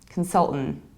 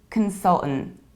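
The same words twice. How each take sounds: The two takes are said the same way.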